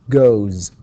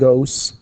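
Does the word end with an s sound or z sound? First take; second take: z sound; s sound. First: The word ends with a voiced z sound. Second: The word ends with a voiceless s sound. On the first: The speaker calls it right. "all vowels are voiced, so we say goes" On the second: The speaker calls it wrong. "not goes"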